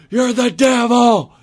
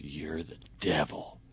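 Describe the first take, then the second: First: High, loud, drawn-out wail; hammed-up slow shriek of accusation; mock screaming accusation. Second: Low, hushed, slow accusing voice; ominous accusation. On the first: Drunk older lady repeatedly accusing a stranger, mock screaming. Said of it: "The lady's now screaming at me". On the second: Retold or imitated. Drunk older lady points at a stranger, hushed accusation. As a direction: drop it low and slow, almost under the breath.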